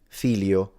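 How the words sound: The middle sound is an L sound. This is how some people say it in the north. "in the north, there are some people sometimes that simplify it into an L"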